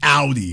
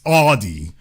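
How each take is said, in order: First: The first syllable does not sound like 'audio'. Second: The first syllable sounds like the start of 'audio'. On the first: The speaker calls it wrong. "some people from the rap music area era pronouncing it Audi" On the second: The speaker calls it right. "It's Audi because it comes from sound, like audio"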